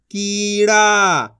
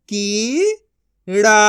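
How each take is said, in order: First: कीड़ा as one joined word; long कीड़ा without a break; blended reading. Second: कीड़ा split into की, pause, ड़ा; syllable by syllable. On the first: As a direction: join की and ड़ा smoothly. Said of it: "इनको आपस मिला के पढ़". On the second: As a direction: sound out कीड़ा in two syllables. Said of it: "एक एक अक्षर का उच्चारण करके". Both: Shown as a demonstration.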